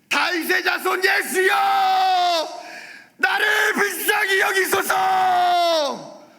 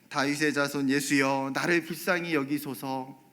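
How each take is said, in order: First: It is shouted very loudly. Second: It is said quietly and plainly.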